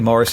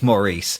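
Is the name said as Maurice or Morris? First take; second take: Morris; Maurice. First: The name is said as Morris. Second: The name is said as Maurice. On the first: The speaker calls it right. "it's definitely Morris" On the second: The speaker calls it wrong. "and not Maurice"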